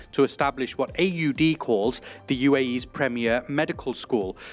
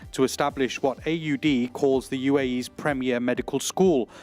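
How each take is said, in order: Both takes have the same delivery.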